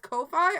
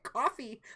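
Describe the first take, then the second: First: The first syllable sounds like 'coe'. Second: The first syllable sounds like 'cough'. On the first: The speaker calls it right. "Is that how you pronounce that? As Ko-fi?" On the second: The speaker calls it wrong. "I've been calling it coffee"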